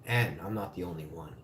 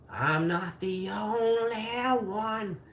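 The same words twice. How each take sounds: First: Said in the usual way. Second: High, drawn-out mock wail; slow, high and whiny sing-out. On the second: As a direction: stretch ONLY into a long, rising high wail. Repeats line drawn out, high.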